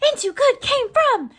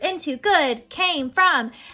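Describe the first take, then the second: First: The words are read fast. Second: The words are read at normal speed.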